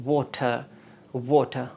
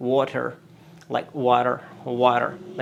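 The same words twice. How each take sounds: First: WATER with a rounded aw, crisp t, silent final r; British water. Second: American WATER with the final r sounded; American accent. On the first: Teacher models British water for learners, non-rhotic. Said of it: "if you go for American accent". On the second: Teacher shows how Americans say water, American accent. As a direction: say WATER like an American, r-coloured ending. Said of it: "if you go for American accent, you would say". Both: Shown as a demonstration.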